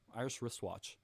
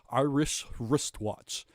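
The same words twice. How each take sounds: First: The middle sounds are blended together smoothly. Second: The middle sounds are said separately and carefully. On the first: The speaker calls it right. "you can just sort of combine the middle part" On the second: The speaker calls it wrong. "even when you pronounce it right, it sounds stupid"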